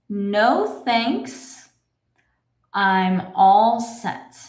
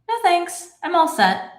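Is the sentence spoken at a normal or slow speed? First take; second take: slow; normal. First: The sentence is spoken slowly. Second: The sentence is spoken at normal speed. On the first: "let's read this slowly" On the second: "I'll read it in my normal speed"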